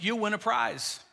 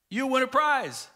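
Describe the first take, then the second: First: Said in the usual way. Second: Higher, punched-up teacher's promise; imitated excited class announcement; emphatic promise. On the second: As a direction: dangle the prize with relish.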